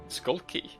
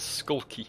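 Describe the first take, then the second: First: It is said as two separate words. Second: It is run together as one word. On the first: It names a key shaped like a skull. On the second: It sounds like an adjective for acting shifty.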